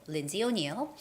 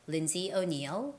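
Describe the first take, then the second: No difference in how they are said.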